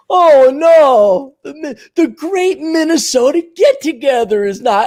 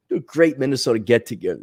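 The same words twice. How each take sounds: First: High mock lament, loud at first; distraught old-timer. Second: Said in the usual way. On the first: Old-timer lamenting the cancelled state fair, high mock wail. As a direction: wail in hammed-up dismay. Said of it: "these old timers and these old farts".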